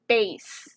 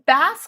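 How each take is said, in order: First: The vowel is long, rhyming with 'face'. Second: The vowel is short, rhyming with 'mass'. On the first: The speaker calls it right. "pronounced like a bass guitar" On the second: The speaker calls it wrong. "not a bass fish"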